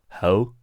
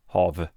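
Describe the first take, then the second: First: The word ends in a vowel with no V sound. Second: The word ends with a clear V sound. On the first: "They don't pronounce it V. They say ho" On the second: "but we say hav"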